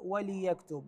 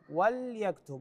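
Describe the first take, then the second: First: The l sound is followed by an i vowel. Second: The l sound has no vowel after it. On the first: The speaker calls it wrong. "وليس وليكتب بكسر اللام" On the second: The speaker calls it right. "اللام هنا ساكنة"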